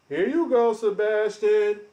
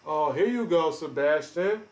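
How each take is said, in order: First: Higher, louder, slow drawn-out taunt. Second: Said in the usual way. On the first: Real, not acted. Streamer loudly calling out his lying rival, taunting. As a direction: stretch the name out to mock him.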